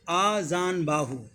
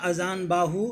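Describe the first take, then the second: First: The first vowel is a long 'aa'. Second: The first vowel is a short 'a'. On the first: The speaker calls it right. "अ पे आ, मात्रा जो होगा ... उच्चारण हमारा ध्यान से सुनिए" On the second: The speaker calls it wrong. "तो ये सही नहीं होगा"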